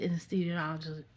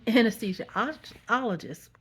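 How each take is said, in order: First: Tongue-tangled on anesthesiologist; stumbled pronunciation. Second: Anesthesiologist slowly, syllable by syllable; a slow second go at anesthesiologist; careful pronunciation. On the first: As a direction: rush and trip over anesthesiologist. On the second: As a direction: work carefully through anesthesiologist. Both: Real, not acted. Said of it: "You say that five times".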